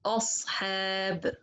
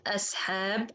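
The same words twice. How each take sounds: First: "أصحاب" with a heavy ص, tongue up at the back. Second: "ashab" with a thin, light s instead of ص. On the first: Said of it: "put my tongue up from the back". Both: Shown as a demonstration.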